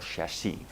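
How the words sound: It is pronounced the French way.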